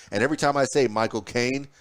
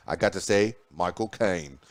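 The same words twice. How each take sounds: First: Said in the usual way. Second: Put-on light Cockney accent, lower and relaxed; a quick playful Cockney Michael Caine impression. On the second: News host imitating Michael Caine in a light Cockney accent. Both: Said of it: "You, you kinda say it in his Cockney voice".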